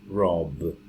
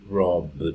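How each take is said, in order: No difference in how they are said.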